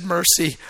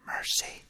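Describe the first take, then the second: First: Said in the usual way. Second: Whispered, unvoiced, one word; hushed whisper. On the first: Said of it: "He said". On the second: Lord whispers mercy to him in prayer, hushed. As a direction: breathe the word like God speaking softly.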